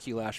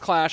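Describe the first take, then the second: First: It is said as two syllables, Q-Lash. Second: It is said as one syllable, Clash. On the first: This is the speaker's preferred name. "I'll never call it Clash. It's Q-Lash for life" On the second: This is the official name. "I know it's Clash"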